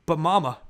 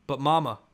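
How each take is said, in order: First: Higher, much louder outcry; crying out. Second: Pleading protest. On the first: Boy protests to mother, wild with hurt, crying out. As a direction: cry it out in protest. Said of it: "I cried out". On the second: Boy starts to argue with mother, pleading. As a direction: object firmly, short of crying out. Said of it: "I said". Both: A narrator's reading.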